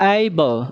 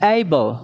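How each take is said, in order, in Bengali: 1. শব্দটি একটি গড়ানো 'ay' স্বরধ্বনি দিয়ে শুরু হয়। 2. শব্দটি একটি গড়ানো 'ay' স্বরধ্বনি দিয়ে শুরু হয়।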